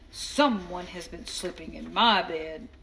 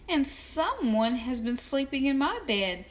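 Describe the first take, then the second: First: It is said in a big, deep voice. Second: It is said in a small, high voice.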